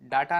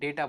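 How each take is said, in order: First: The first vowel is a long 'ah' sound. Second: The first vowel is an 'ay' sound. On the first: The speaker calls it wrong. "अगर आप डाटा बोलते हैं तो ये pronunciations के हिसाब से रॉन्ग है" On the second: The speaker calls it right. "डेटा बोलना चाहिए"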